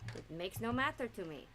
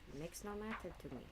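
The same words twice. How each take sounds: First: It is said with high energy. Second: It is said with low energy.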